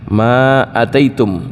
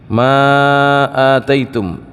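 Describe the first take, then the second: First: The vowel after 'ma' is kept short. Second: The vowel after 'ma' is drawn out long. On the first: "dengan pendek alifnya"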